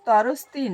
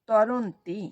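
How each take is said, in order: First: The word is said with an s before 'ti'. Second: The word is said with an n before 'ti'. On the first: The speaker calls it wrong. "ওটা তরস্তি নয়" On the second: The speaker calls it right. "ওটা হচ্ছে তরন্তি"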